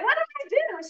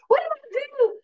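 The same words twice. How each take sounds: First: High, indignant squeak; mock whiny protest. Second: High, louder indignant squeak; amped-up protest. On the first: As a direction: play the confused daughter, way up high. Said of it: "she's like". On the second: Retold or imitated. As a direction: act all amped up and baffled. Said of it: "She's all amped up".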